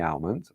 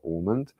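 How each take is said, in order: First: "almond" with a short "al" at the start; "almond" opening on an A as in "pal"; first pronunciation variant. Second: "almond" with an "aw" opening; "almond" starting like "awe", no L; alternative pronunciation. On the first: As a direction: say "almond" as AL-mund, L sounded. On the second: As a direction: say "almond" as AW-mund, L silent. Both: Shown as a demonstration. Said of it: "however you wish to pronounce it".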